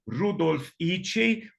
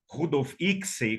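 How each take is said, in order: First: The surname is said the Hungarian way. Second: The surname is said the common local way. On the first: "eu aprendi a pronúncia correta com uma amiga pesquisadora húngara" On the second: "como era chamado"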